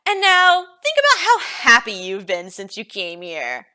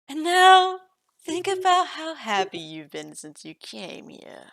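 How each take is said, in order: First: The voice is loud and brash. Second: The voice is soft and soothing. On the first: The speaker calls it wrong. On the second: The speaker calls it right.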